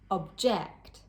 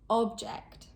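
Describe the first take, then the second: First: The stress is on the second syllable. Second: The stress is on the first syllable. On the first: It is used as a verb or adjective. "with two-syllable verbs or adjectives, the stress is usually placed on the second syllable" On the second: It is used as a noun. "with two-syllable nouns, the stress is placed on the first syllable"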